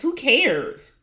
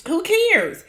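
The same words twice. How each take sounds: First: Said in the usual way. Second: High, scoffing who cares; dismissive. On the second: Shown as a demonstration. Vlogger scoffing at the cast's worries, high and dismissive. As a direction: toss it off, mocking anyone who would care. Repeats it, pitched way up.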